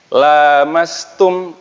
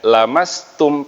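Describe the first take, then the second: First: The first vowel is held long. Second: The first vowel is kept short.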